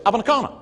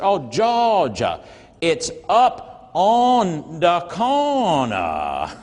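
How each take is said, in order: First: Said in the usual way. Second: "Oh, Georgia, it's up on the corner" dragged out very slowly; much slower. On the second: Retold or imitated. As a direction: spell it out slowly as if to a foreigner. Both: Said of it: "Like somehow he needed to say it slower".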